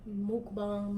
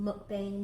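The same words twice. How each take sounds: First: Mukbang said mook-bahng, oo and ah vowels. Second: Mukbang said muck-bang, short uh and flat a. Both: Shown as a demonstration. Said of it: "however you say it".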